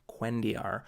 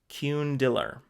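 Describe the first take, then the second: First: The middle consonant sounds like a 'y'. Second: The middle consonant sounds like an 'l'. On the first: The speaker calls it right. "the L's pronounced like a Y" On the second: The speaker calls it wrong. "I was calling it Cundiller"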